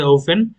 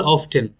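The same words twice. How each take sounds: First: "often" as OH-fen, with no T; British often, silent T. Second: "often" as OF-ten, T pronounced; American often, sounded T. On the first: Teacher contrasts British and American, silent-T often. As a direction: drop the T in "often", as she says the British do. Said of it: "ব্রিটিশরা বলে". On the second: Teacher contrasts American and British, sounded-T often. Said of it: "আমেরিকানরা বলে". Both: Shown as a demonstration.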